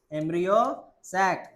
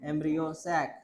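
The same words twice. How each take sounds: First: "embryo", pause, then "सैक।" said apart; split with a pause. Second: Said in the usual way. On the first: Shown as a demonstration. Teacher spells out the term for the class, word by word with a pause. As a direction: say "embryo" with a rise, stop, then "सैक।" so students can repeat. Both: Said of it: "इसको तू क्या बोलेगा?".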